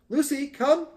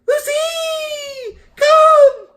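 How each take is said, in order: First: It is said in a normal voice. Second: It is said in a high-pitched voice.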